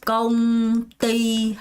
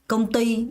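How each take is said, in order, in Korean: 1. 두 음절 모두 같은 박자로 고르게 읽어요. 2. 첫 음절은 약하게, 두 번째 음절에 강세를 줘요. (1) "한 박 한 박이 아니라" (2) "앞엔 살짝 약하게 두 번째 강세를 주면서"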